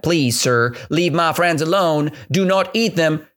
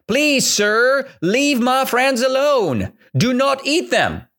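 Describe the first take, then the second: First: Said in the usual way. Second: High, slow, begging voice; the elephant begging the tiger, high and slow; pleading elephant. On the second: Acted. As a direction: beg the tiger to spare them. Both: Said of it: "The elephant said".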